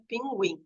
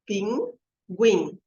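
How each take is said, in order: First: Said in the usual way. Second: "Pinguim" split in two with a clear pause; syllable by syllable. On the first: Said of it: "quantas sílabas tem a palavra". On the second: Shown as a demonstration. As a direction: count out the syllables of "Pinguim", Pin, guim. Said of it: "falar quantas sílabas tem". ("Pinguim" separado em sílabas, com pausa)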